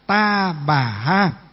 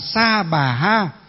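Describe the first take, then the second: First: The first word begins with a t sound. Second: The first word begins with an s sound. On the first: This is the southern regional pronunciation. "còn miền Nam thì là Ta Bà Ha" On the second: This is the northern regional pronunciation. "miền Bắc thì là gì? Là Sa Bà Ha"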